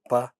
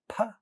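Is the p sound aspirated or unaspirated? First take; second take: unaspirated; aspirated. First: The p is released without a puff of air. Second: The p is released with a puff of air. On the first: "unaspirated, voiceless" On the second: "At the initial position, what we see is it gets aspirated"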